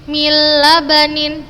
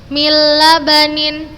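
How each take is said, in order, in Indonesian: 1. Nun melebur sepenuhnya ke l yang mengikuti. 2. Nun melebur sepenuhnya ke l yang mengikuti.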